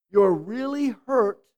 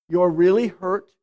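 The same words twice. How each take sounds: First: Gentle demo. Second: "You're really hurt" with a firm, falling hit on "really"; stress on really. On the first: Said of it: "It would be something like this". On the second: Pastor naming the emotion part, stressing "really". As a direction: label the emotion, leaning on "really". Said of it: "is the emotion". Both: Shown as a demonstration.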